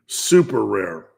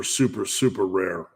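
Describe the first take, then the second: First: "Super rare" drawn out slowly and said louder, both words weighted; slow emphasis. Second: Said in the usual way. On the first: Real, not acted. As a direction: lean on "Super rare" to drive it home. Repeats rare answer for emphasis.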